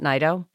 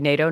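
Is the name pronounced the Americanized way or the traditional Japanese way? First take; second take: Japanese; Americanized. First: The name is said in its traditional Japanese form. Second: The name is said in its Americanized form. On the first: This is how the name is traditionally said in Japan. "not Nido?" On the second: This is how the family name is said in America. "You say Nato"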